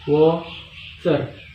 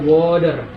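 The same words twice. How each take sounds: First: The middle t is pronounced clearly. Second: The middle t is softened, not crisp. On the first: This is the British accent. "pakai tc, water, water. Ini dia itu kayak dia uh, namanya aksen uh, British" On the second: This is the most common form for learners. "yang paling sering itu kita pakai kalau mau belajar itu bahasa Inggris dia pakai uh, water, lebih gampang"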